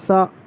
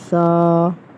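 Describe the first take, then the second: First: The vowel ends in a sharp glottal catch. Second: The vowel ends softly without a glottal catch. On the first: The speaker calls it wrong. "बहुत से बच्चे इस तरह पढ़ते हैं सा, सा। ऐसे हमज़ा की आवाज़ नहीं निकालनी है।" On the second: The speaker calls it right. "ना ज़्यादा खींचना है, नरमी से ऊपर वाले दांतों पे ज़बान लगा के पढ़नी है।"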